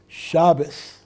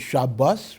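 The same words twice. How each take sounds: First: The stress is on the first syllable. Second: The stress is on the last syllable. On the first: This is the Yiddish way of saying it. "In Yiddish, the accent happens to be on the first syllable" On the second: This is the Hebrew way of saying it. "as opposed to"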